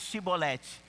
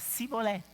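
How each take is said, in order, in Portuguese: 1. A palavra começa com som de 'sh'. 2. A palavra começa com som de 's'. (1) "fala aí Shibolete" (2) "não conseguia pronunciar do mesmo jeito, falava diferente"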